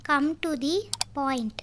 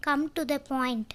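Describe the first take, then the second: First: "Come to the", with "the" said as "thee", then "point" alone; pause before POINT. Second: Said in the usual way. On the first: Shown as a demonstration. English teacher repeats the phrase for learners, pausing before "point".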